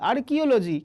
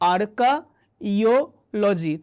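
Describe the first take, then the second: First: The second syllable sounds like 'kee'. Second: The second syllable sounds like 'kai'. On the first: This is how the word is normally pronounced. "তুমি উচ্চারণ করবে আর্কিওলজি" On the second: This form helps with remembering the spelling. "যখন বানান করবে তখন এইভাবে শব্দটার ফ্রেমওয়ার্কটা তৈরি করো"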